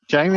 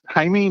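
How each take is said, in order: First: The name begins with a J sound. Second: The name begins with an H sound. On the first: The speaker calls it wrong. "not Jamie" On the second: The speaker calls it right. "it's Hamey, ... It's pronounced as an H"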